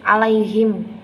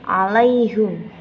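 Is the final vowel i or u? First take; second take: i; u. First: The word ends with the vowel i before m. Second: The word ends with the vowel u before m.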